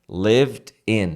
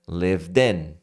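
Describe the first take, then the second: First: The two words are said separately. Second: The two words run together as one.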